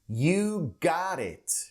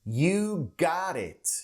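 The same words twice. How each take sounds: First: It is said in a North American accent. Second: It is said in a North American accent.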